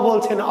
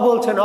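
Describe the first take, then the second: No difference in how they are said.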